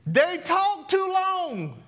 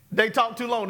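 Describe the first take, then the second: First: Slow, high and stretched on TOO; drawn-out high. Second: Said in the usual way. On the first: Shown as a demonstration. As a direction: drag out "too long" in a high teasing voice. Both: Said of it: "Give me yours".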